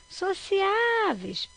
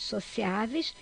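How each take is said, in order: First: Sociáveis with the Á drawn out high; stress on Á. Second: Said in the usual way. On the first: Shown as a demonstration. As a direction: call "sociáveis", stretching and lifting the stressed Á. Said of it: "paroxítonas". (sociáveis com o Á bem longo e agudo) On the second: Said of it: "vamos ver essa frase".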